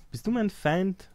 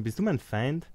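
First: Higher, slow, drawn-out challenge; mock threatening question. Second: Said in the usual way. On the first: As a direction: ask it again like a suspicious ruler. Repeats question, higher and slower. (misstrauisch gedehnte Frage, höher und langsamer)

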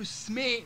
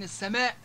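First: السماء as es-smee; dropped hamza. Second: Said in the usual way. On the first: Shown as a demonstration. Teacher giving examples, السماء without final hamza. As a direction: say السماء with sm cluster and no final stop. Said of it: "الهمزة القاطعة هذه". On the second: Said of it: "بدل من السماء".

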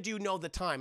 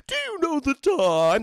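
First: Said in the usual way. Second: High, slow, loud eerie demon voice; slow, looming creepy question; creepy demon teacher. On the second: Retold or imitated. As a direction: drag it out like a lurking monster. Creepy demon gym teacher quote.

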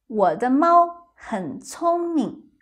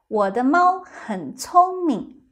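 Both takes have the same delivery.

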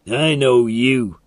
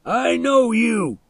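First: Said in the usual way. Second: High, drawn-out angry yell; shouted. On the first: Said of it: "Milo said". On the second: A narrator's reading. Milo yells at the boy across the fence, shouting. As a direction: yell it slowly at a high pitch. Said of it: "he shouted".

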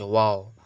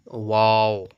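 First: ওয়াও said as a quick, casual English "wow" of delight; ওয়াও tossed off lightly like everyday chat. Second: ওয়াও as the Arabic letter, louder, with a long falling vowel; ওয়াও pronounced carefully as the Arabic letter name; Arabic letter waw. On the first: Teacher giving a chatty wow as a contrast example. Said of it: "এই ওয়াও উচ্চারণ করলে". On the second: Teacher showing students the proper letter pronunciation, louder and careful. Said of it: "তো উচ্চারণটা কি?". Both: Shown as a demonstration.

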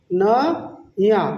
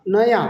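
First: Very slow "ন - য়া"; teacher sounding out "নয়া" in two slow parts; broken into syllables. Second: Said in the usual way. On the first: Shown as a demonstration. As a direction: stretch "ন", pause, then "য়া". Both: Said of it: "নেপালিতে বলবো".

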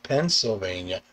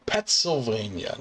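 First: Said in the usual way. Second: "Pennsylvania" turned into Pet-sylvania; first syllable of "Pennsylvania" said as "pets"; punning pronunciation. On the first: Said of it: "not Pennsylvania". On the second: Shown as a demonstration. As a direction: say "Pennsylvania" with Pets in place of Penn. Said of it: "not Pennsylvania, Pets".

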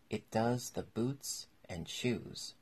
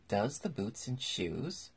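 First: Slow, weighty solemn pronouncement. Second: Slow, puzzled echo rising into a question; wondering. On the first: Griffin explains the whiting to Alice, very solemn. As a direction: say it slowly with mild solemnity. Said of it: "replied very solemnly". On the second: Alice repeats the Griffin's baffling answer, wondering. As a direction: repeat it slowly, thoroughly puzzled. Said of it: "in a wondering tone". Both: A narrator's reading.

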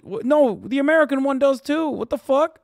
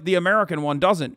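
First: High-pitched, exasperated contradiction; incredulous rebuttal. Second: Said in the usual way. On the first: Real, not acted. Streamer countering what people say about American oligarchs, incredulous. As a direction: jump up in pitch to shoot the claim down. Rebuts the view just voiced. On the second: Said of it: "People make it seem like".

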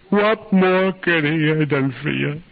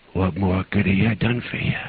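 First: High, drawn-out screamed question; anguished scream. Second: Subdued, pleading question, spent; mild retold sobbing, voice drained of force; understated sob. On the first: Retold or imitated. Grieving mother demanding an answer, screamed in anguish. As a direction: scream the question slowly, blazing with anger. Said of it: "looked at me and she screamed". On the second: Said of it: "began to sob".

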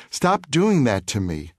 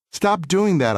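First: Put-on boy begging the bully to stop, understated; slow plea. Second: High, pushed stop doing that; boy grabbing his tormentor, mild anger; firm demand. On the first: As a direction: plead it, drawn out. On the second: Retold or imitated. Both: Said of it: "I said, grasping him".

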